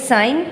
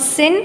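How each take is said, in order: First: The word has a long ai vowel. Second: The word has a short i vowel. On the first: The speaker calls it right. "But this is साइन" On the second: The speaker calls it wrong. "Normally student pronounce this सिन, this is not सिन"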